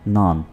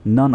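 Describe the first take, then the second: First: The vowel is stretched out long. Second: The vowel is short and clipped. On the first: The speaker calls it wrong. "थोड़ा सा खींच कर पढ़ा जाता है नॉन, तो ये बहुत ही गलत है" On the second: The speaker calls it right. "नन इसको बोलते हैं"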